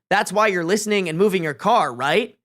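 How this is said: It is read in a cocky, taunting voice.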